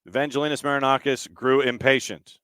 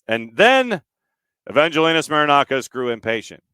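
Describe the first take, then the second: First: It is said in a normal speaking voice. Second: It is said in an official radio announcer voice.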